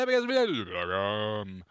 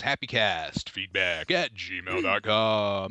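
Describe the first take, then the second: First: Fast, garbled rattle-off; rushed repeat. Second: Said in the usual way. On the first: Pretend. Host repeating the email address, comically rushed. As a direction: race through it in a put-on voice.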